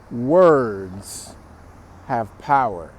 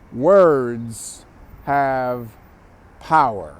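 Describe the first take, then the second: First: POWER landed with a falling close; stress on power. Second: WORDS stretched out, slow and heavy; stress on words. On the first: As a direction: pause after Words, then drop onto power. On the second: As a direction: lean into WORDS, then let power fall. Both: Shown as a demonstration.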